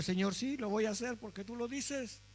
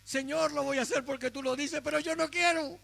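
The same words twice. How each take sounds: First: Soft, yielding obedience to God; humble surrender. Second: Higher, complaining yes with a sulky end; obey but let the resentment show; grudging obedience. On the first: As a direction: say yes to the Lord gently, giving in. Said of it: "A veces hay que obedecer así". (sumisión suave y humilde) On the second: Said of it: "Y aquí está nuestra reprimenda". (obediencia a regañadientes, quejándose) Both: Shown as a demonstration.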